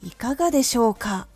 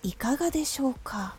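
First: The ending grows stronger and stronger. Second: The phrase is placed softly and gently.

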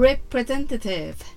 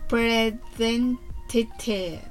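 First: The word is said fast. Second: The word is said slowly.

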